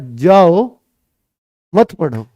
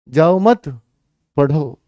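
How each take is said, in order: First: There is a pause right after 'jao'. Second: There is a pause right after 'mat'.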